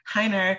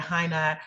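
First: Heiner with a New England r, Hei-ner-r; New England accent. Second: Said in the usual way. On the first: Real, not acted. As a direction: Heiner said the Boston way, ending in a hard r. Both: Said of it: "that was my New England accent that came out there".

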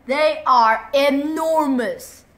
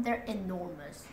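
First: Big, slow, loud declaration; emphatic loud. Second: Said in the usual way. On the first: Shown as a demonstration. Kid stressing how huge the giants are, loud and slow.

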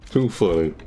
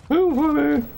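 First: Said in the usual way. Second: Much higher, squealed through laughter; high laughing repeat. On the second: Real, not acted. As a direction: crack up on "Too". Repeating after plain take.

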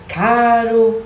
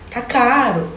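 First: "Caro." loud and higher, clipped carioca style; short Brazilian word. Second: "Tá caro." pitched higher, a failed carioca try; bad Brazilian accent. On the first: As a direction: say just the one word, Brazilian-like. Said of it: "tem que dizer". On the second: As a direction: show how the accent slips. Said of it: "vai ficar assim". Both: Shown as a demonstration.

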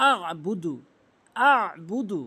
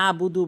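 First: আবুদু with a squeezed mid-throat ayn; throaty ayn held before the b in আবুদু; correct ayn. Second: আবুদু with a plain open a; ordinary Bengali vowel starting আবুদু; mispronounced without ayn. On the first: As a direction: press the first sound of আবুদু from mid-throat. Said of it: "হলকের মাঝখান থেকে". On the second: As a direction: say আবুদু with no throat sound. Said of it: "আইনের উচ্চারণ আমরা আনেই না". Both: Shown as a demonstration.

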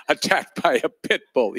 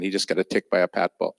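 First: "attacked by a pit bull" with the stress fixed, said higher; retry "pit bull" with the stress in the right place; second go at "attacked by a pit bull", a touch higher; stress corrected on pit bull. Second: Said in the usual way. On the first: Real, not acted. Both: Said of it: "the accent was on the wrong syllable".

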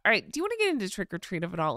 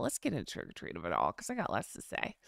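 First: Said in the usual way. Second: Much lower and softer, dragged down in a creaky sigh of annoyance; vocal eye roll. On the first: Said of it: "you can prob-, yeah, I do this thing with my voice". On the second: Shown as a demonstration. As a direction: roll your eyes with your voice, sink low and go quiet. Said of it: "I'm rolling my eyes vocally".

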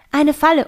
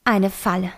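First: Falle said higher and louder; alarmed emphasis on Falle; stress on Falle. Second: Said in the usual way. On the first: A narrator's reading. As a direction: hit the word Falle in alarm. Narrator realises the trap.

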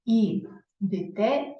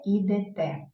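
First: "І дите" very slow, broken after І, with и before те; и instead of е. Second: "ідете" with an open е before те; clear е vowel. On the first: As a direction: sound out "І дите" as і-дИ-те. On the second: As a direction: sound out the е in "ідете". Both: Shown as a demonstration. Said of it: "Тому ми напишемо букву".

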